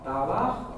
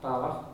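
First: An audible R sound and a soft final CH. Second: A neutral vowel and a strong final CH. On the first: This is how Ulster speakers say it. "We say Balach... It's an R sound, and the CH is softer" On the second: This is how most of the country says it. "in the rest of the country, it's Balach... And it's a strong CH"

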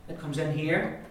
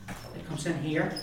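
Both takes have the same delivery.

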